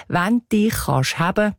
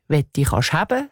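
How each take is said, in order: First: „Wenn“ as Zurich „wänn“, open vowel, sounded N; Zürichdeutsch „Wenn“. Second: „Wenn“ as Bernese „we“, the N dropped; Berndeutsch „Wenn“. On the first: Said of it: "der [name]". („Wenn“ uf Züritüütsch als „wänn“, mit n) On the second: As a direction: drop the final N of „Wenn“. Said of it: "singt der [name]". („Wenn“ uf Bärndütsch als „we“, ohni n) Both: Shown as a demonstration.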